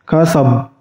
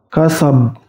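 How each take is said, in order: No difference in how they are said.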